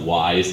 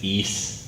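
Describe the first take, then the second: First: The name is said to rhyme with 'wise'. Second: The name is said to rhyme with 'ease'. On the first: The speaker calls it wrong. "it's not wise" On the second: The speaker calls it right. "it's ease. That's the proper pronunciation"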